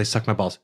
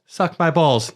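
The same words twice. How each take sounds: First: Said in the usual way. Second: Higher, kindergartner repeating a line; imitating a small daughter. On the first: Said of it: "with his daughter telling her to". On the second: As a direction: parrot it back in a higher little-girl voice. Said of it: "his daughter ... do the lines for the kindergartners".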